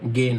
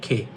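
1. এটি একটি নরম g ধ্বনি দিয়ে শুরু হয়। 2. এটি একটি নিঃশ্বাসযুক্ত k ধ্বনি দিয়ে শুরু হয়। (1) "গে না" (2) "এটা হবে খে"

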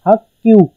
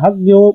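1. दूसरे अक्षर की शुरुआत टेंस व्यंजन से होती है। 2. दूसरे अक्षर की शुरुआत सादे व्यंजन से होती है। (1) "उसकी आवाज़ डबल हो जाती है, मतलब कि हक क्यू" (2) "लिखने में हक ग्यो समझ आ रहा है"

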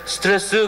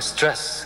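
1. 한국어 음절로 발음합니다, seu-teu-re-seu. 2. 영어 음절 하나로 발음합니다, stress. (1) "스트레스 그러면 발음이 나쁘신 거예요" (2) "영어로 하시려면 영어로 하시고"

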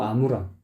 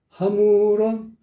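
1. 이 단어는 그냥 모음으로 시작해요. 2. 이 단어는 ㅎ 소리로 시작해요. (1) "하무런이 아니고 아무런" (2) "목에 힘이 들어가니까 아 발음이 하가 돼버린 거예요"

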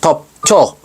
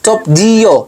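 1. Ang dulo ay kinokontrata tungo sa iisang pantig na -cho. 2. Binibigkas ang bawat pantig, at nananatiling hiwalay ang -ji-yo. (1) "yung pronunciation bila sa mga Korean, native Korean" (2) "Kapag binasa mo naman yun"

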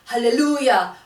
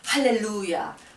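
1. 액센트는 세 번째 음절에 있습니다. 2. 액센트는 첫 번째 음절에 있습니다. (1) "루에다가 액센트를 하라고 하시는" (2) "할렐루야부터 시작해야 됩니다"

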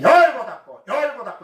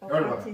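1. 이 구절은 크게 말하며, 열을 강조합니다. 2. 이 구절은 힘을 주지 않고 부드럽게 말합니다. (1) "목소리도 커야 돼. 열자를 커야 돼. 열고 닫고 이래야 된대" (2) "이러면 안 돼요"

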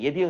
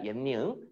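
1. 두 번째 음절은 d 소리로 시작해요. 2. 두 번째 음절은 n 소리로 시작해요. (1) "예디응 아니야" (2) "옌니응이라고 말하면 돼"

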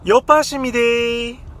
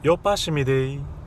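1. 올려서 높은 톤으로 말합니다. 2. 낮고 평평한 톤으로 말합니다.

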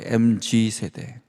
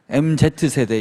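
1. 두 번째 글자는 'jee'처럼 발음해요. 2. 두 번째 글자는 'zed'처럼 발음해요. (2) "MZ세대 이렇게 하면 안 돼요"

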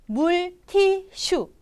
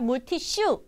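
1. Dibaca sesuai tulisan, huruf demi huruf. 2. Diucapkan dengan lafal sehari-hari yang alami. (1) "bahasa Koreanya adalah" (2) "cara pembacaan yang pelafalan yang natural"

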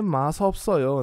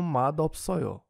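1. A primeira sílaba se liga a um som de s. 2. A primeira sílaba se liga a um som de d. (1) "a gente não lê masopsoyo" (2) "a gente lê como madopsoyo"

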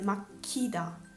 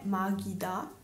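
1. La consonante centrale è fortemente aspirata. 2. La consonante centrale è dolce e non aspirata. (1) "ma è makida" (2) "makida non è magida"

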